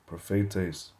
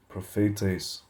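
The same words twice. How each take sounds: The two takes are said the same way.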